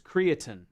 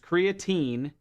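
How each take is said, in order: First: The word is said with a British pronunciation. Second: The word is said with an American pronunciation. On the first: "The British way of saying it is creatine" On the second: "The American way of saying it is creatine"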